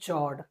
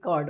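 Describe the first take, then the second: First: The word begins with a 'ch' sound. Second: The word begins with a 'k' sound. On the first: The speaker calls it wrong. "बच्चे इसको पढ़ते हैं चॉर्ड" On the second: The speaker calls it right. "कॉर्ड होता है"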